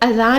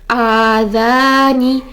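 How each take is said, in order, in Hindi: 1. पहला स्वर छोटा है। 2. पहला स्वर दो मात्रा तक खींचा जाता है। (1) "अलिफ मद्दा पढ़ने के बजाय हम इसको अज़ान ही पढ़ जाते हैं" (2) "आ टू काउंट्स पूरा करेंगे"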